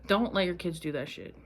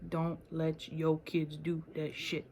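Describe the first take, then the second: First: Said in the usual way. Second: Slower, leaning on "your"; slow mock-stern repeat. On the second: Shown as a demonstration. Repeating the warning to viewers in a slow mock-stern voice.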